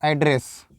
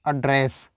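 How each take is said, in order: First: "एड्रेस" with an open a first; noun pronunciation. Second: "एड्रेस" with a short uh first; verb pronunciation. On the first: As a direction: say "एड्रेस" as AD-ress. ("एड्रेस" में पहले खुला "ऐ") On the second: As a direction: say "एड्रेस" as uh-DRESS. ("एड्रेस" में पहले छोटा "अ") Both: Shown as a demonstration. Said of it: "इसको आप क्या नहीं बोलना है".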